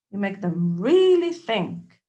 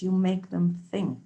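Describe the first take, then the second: First: "really" leaned on, words drawn out slowly and louder; slow down and press "really"; slow, stressed really. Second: Said in the usual way. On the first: Shown as a demonstration. To the listener, driving the point home, slow and emphatic.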